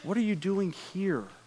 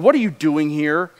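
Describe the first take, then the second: First: It sounds gentle and caring. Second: It sounds ridiculing and mocking.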